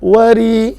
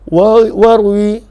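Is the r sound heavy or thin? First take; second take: thin; heavy. First: The r sound is thin and light. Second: The r sound is heavy and full. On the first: The speaker calls it right. "maka ianya dibaca dengan nipis" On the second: The speaker calls it wrong. "Kalau tebal dibaca"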